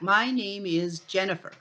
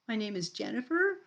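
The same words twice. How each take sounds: First: The voice falls at the end like a statement. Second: The voice rises at the end like a question.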